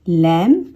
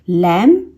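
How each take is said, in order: Both takes have the same delivery.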